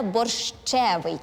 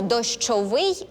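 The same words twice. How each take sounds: First: Slow борщевий, weight on the ЩЕ; stress on the stem. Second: Slow дощовий, weight on the last syllable; stress on the ending. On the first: Host contrasts two words for contestants, борщевий stressed on the middle syllable ще. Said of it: "наголос падає на основу". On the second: Host contrasts two words for contestants, дощовий stressed on its final syllable. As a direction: stress -вий at the end of дощовий. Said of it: "але наголос на основі". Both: Shown as a demonstration.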